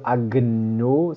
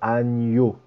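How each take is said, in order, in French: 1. Le milieu est un g dur suivi d'un n. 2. Le milieu est un seul son ny. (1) "Pas de agno" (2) "c'est agneau"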